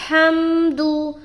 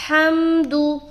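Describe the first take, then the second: The two takes are said the same way.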